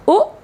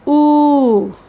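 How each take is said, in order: First: U as a very brief "oo" as in put; short U. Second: U as a long, held "oo", falling away. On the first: Teacher comparing short and long sounds, short U. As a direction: cut the U short. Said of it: "short sounds like U". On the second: Teacher comparing short and long sounds, long U. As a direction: stretch the U right out. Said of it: "with a length U". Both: Shown as a demonstration.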